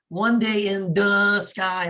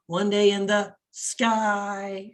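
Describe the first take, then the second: First: The word sky is not stressed. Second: The word sky is stressed.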